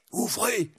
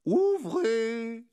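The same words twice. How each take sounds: First: High, hushed little monk; high-voiced friar. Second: High, drawn-out singsong call; amused, high-pitched calling; amused sheriff. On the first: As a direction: call discreetly through the door, pitched high. Monk calling at a door. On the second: Acted. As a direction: sing it out teasingly through the door. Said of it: "dit une voix amusée".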